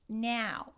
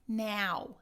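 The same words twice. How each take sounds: First: The diphthong has a northern-shifted vowel. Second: The diphthong has a northern-shifted vowel.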